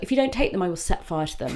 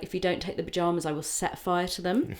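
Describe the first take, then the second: First: Lightly acted threat, pitched up then dropping; retold mum's threat. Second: Lightly imitated Midwest mum, softer and quick; hint at a Midwest accent, lifting at the end; soft, brisk Midwest mum voice. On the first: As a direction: imitate a mum's dramatic ultimatum. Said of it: "She's like". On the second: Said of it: "like, Midwest accent".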